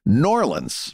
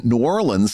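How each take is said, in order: First: "Norleans" run together as one slurred word, said slowly; local pronunciation. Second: "New Orleans" said in full as New Or-leans; outsider pronunciation. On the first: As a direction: squash "Norleans" into a single drawled word. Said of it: "They say Norleans". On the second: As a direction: spell out "New Orleans" in three clear syllables. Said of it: "nobody in New Orleans says New Orleans". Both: Shown as a demonstration.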